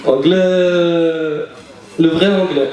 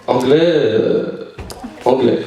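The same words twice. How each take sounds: First: Anglais stretched very slowly again; slow mock anglais; drawn-out anglais. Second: Anglais stretched very slowly and low; drawn-out anglais. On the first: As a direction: drag out anglais, then le vrai anglais. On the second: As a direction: drag out the word anglais. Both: Shown as a demonstration.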